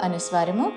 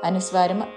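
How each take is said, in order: No difference in how they are said.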